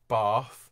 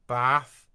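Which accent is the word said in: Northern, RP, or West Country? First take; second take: RP; West Country. First: The word is said in an RP accent. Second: The word is said in a West Country accent. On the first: "RP in sort of most of London" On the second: "West Country"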